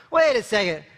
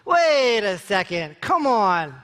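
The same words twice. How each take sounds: First: Quick check on yourself; self-correcting retort. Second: Slow, stretched-out objection; drawn-out protest. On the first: Talking yourself out of embarrassment at a party, self-correcting retort. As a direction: pull yourself up briskly. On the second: Talking yourself out of embarrassment at a party, drawn-out protest. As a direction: drag out each phrase in protest. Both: Acted.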